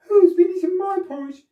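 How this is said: It is said in a middle-sized voice.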